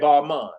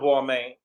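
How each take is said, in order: First: The second syllable sounds like 'mun'. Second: The second syllable sounds like 'main'. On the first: The speaker calls it right. "that's what she said" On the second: The speaker calls it wrong. "I think I pronounced it wrong"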